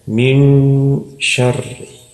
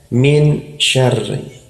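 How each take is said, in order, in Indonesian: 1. Bunyi n dibisukan dan digabung ke bunyi sh. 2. Bunyi n diucapkan penuh dan jelas. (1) "Padahal yang benar adalah" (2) "Kalau kita membaca tanpa tajwid ini"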